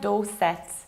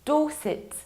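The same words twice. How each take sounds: First: The final syllable is said fully, not reduced. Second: The final syllable is reduced and weak. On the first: The speaker calls it wrong. "not like Dorset" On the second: The speaker calls it right. "You need to reduce the ending"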